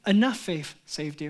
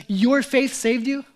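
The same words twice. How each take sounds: First: "Enough" leaned on, low and dismissive; "Enough" stressed, mock heretic claim. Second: "Your" lifted and slowed, louder; "Your" set against enough; stress on your. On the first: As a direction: hit "Enough" as the wrong reading. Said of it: "He didn't say". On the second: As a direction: lean on "Your", slow and deliberate. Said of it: "He didn't say, "Enough faith saved you". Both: Shown as a demonstration.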